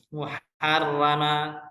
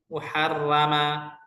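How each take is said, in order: The two takes are said the same way.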